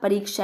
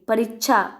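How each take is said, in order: First: The middle consonant sounds like ksh. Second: The middle consonant sounds like chh. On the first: The speaker calls it right. "परीक्षा है" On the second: The speaker calls it wrong. "परीक्षा को परीक्षा बोलते हैं"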